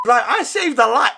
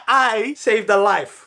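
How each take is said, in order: First: Said in the usual way. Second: "I saved a life" drawn out very slowly, every word weighted; slow emphatic repeat. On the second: Shown as a demonstration. Speaker to viewers, proud slow repeat of "I saved a life".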